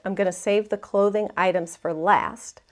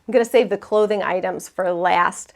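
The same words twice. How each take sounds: First: It is said in a plain accent. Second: It is said in a Boston accent.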